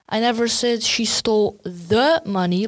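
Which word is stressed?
the. The stress is on "the".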